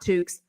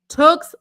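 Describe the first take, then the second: First: The vowel does not rhyme with 'books'. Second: The vowel rhymes with 'books'. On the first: The speaker calls it wrong. "not Tukes" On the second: The speaker calls it right. "Tooks like books is what she told me"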